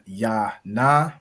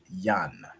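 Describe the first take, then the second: First: Two separate syllables, each ending in a vowel. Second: One joined syllable, the last vowel dropped. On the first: The speaker calls it wrong. "instead of it being ya na" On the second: The speaker calls it right. "it's just gonna be yan"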